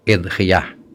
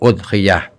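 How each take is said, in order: First: The word begins with an 'i' vowel. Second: The word begins with a 'u' vowel. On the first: "karena ada yang baca kasroh hamzahnya" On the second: "dhammah hamzahnya"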